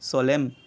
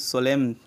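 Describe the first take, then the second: The two takes are said the same way.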